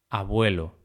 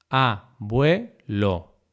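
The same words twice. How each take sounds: First: Said in the usual way. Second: Abuelo broken slowly into a, bue, lo; syllable by syllable. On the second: Shown as a demonstration. Teacher dividing abuelo for learners, syllable by syllable. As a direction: say "abuelo" as three separate syllables.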